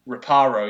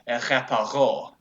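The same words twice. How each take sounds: First: It is said in an English accent. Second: It is said in a French accent, final stress.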